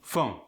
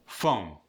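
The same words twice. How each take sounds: First: "phone" with the O shaded toward oo; Philadelphia-accented "phone", O fronted; Philly O sound. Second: Said in the usual way. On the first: Shown as a demonstration. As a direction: move the vowel in "phone" upward. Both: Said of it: "The vowel moves upward".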